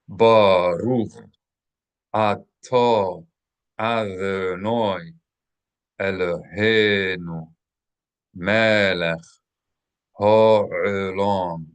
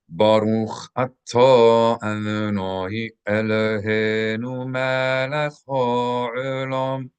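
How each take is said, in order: First: It is recited slowly and deliberately. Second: It is recited at a faster, natural pace.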